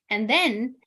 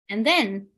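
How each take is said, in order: Both takes have the same delivery.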